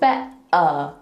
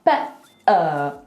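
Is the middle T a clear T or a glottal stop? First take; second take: glottal stop; glottal stop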